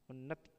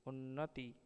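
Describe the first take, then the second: First: उन्नति clipped to "unnat"; उन्नति ending on t; second form. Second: उन्नति with a full final "ti"; उन्नति in three syllables; wrong form. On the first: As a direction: drop the last vowel of उन्नति. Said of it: "शुद्ध शब्द". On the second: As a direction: sound the last i of उन्नति. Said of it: "अशुद्ध शब्द". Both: Shown as a demonstration.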